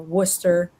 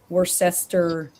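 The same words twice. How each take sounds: First: It is said the way locals say it. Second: It is said the way outsiders say it. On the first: The speaker belongs to the area. The speaker calls it right. "I know how to say" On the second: The speaker is not from the area. The speaker calls it wrong. "they just can't pronounce the words right"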